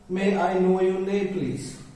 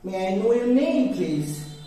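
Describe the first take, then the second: First: It is said in an Asian English accent. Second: It is said in a standard native-like accent. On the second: "it's like standard one"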